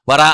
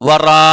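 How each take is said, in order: First: The long vowel is cut short. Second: The long vowel is held for several beats. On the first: The speaker calls it wrong. "ഓതാൻ പാടില്ല, അത് തെറ്റാ" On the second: The speaker calls it right. "നാല് മുതൽ അഞ്ച് ഹർക്കത്ത്"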